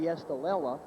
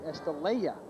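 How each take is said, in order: First: The double L is pronounced as an L sound. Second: The double L is pronounced as a Y sound. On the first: "they pronounce the double L in Spanish as the double L" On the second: "they pronounce it as the Y"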